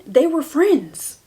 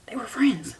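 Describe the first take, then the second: First: Higher airy whisper with some push; stage whisper. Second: Quieter airy whisper, dropping away; soft whisper. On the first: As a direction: whisper They were friends like a secret. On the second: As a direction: breathe They were friends softly. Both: Real, not acted.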